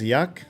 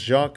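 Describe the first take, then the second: First: The name begins with a y sound. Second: The name begins with a soft zh sound. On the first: "Kind of a Y sound?" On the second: "not pronounced Jacques like French"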